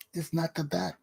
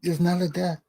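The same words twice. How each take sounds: First: Much softer repeat of the same words; soft echo of the line; dropped to near silence. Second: Said in the usual way. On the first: Shown as a demonstration. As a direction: let the repeat sink quiet, almost to yourself.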